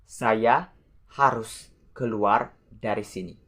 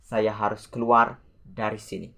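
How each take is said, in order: First: Word by word with pauses; measured example, phrase by phrase. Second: Said in the usual way. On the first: Shown as a demonstration. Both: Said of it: "The example".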